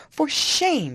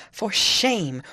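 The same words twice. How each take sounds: First: A much higher, louder repeat of "shame"; Isabella, louder, rebukes Catherine; angrier. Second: A louder, stern cry of "shame"; angry. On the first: Furious high rebuke. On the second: Indignant rebuke. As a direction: Isabella rebukes her sister-in-law. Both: A narrator's reading. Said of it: "she repeated angrily".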